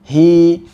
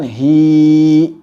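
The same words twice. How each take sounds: First: The vowel is held two counts, ending smoothly. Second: The vowel is stretched out far too long. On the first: The speaker calls it right. "hanya dua harokat saja" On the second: The speaker calls it wrong.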